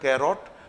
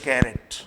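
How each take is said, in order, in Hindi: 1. दूसरा स्वर एक पूरी 'oh' ध्वनि है। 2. दूसरा स्वर एक कमज़ोर 'uh' ध्वनि है। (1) "स्पेलिंग के आधार पर लोग इसका उच्चारण कर देते हैं कैरोट, पर वह उच्चारण गलत है" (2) "हम इसे कहते हैं कैरेट"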